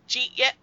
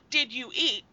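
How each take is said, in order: First: The words are run together into two syllables. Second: Each word is pronounced separately and clearly. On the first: "there's no enunciation in Pittsburghese" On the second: "it's not did you eat"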